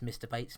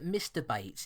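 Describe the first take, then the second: First: It is said quickly, running the words together. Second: It is said at a normal, unhurried pace.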